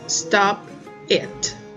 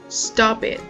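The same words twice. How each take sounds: First: The two words are said separately. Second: The two words are linked together. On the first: The speaker calls it wrong. "we don't say" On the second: The speaker calls it right. "We just go stop it. There is the linking sound"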